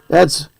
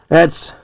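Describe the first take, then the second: No difference in how they are said.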